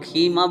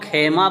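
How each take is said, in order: First: The first vowel is a long 'ee' sound. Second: The first vowel is an 'e' sound. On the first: "कुछ लोग खीमा बोलते हैं" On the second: "इसको कुछ लोग खेमा बोलते हैं"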